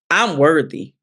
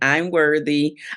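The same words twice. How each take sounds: First: It is said with weight and conviction. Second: It is said flatly, without conviction. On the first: The speaker truly believes the words. The speaker calls it right. "there's that belief and that conviction" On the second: The words are repeated by rote without belief. The speaker calls it wrong. "you're saying it kind of like that"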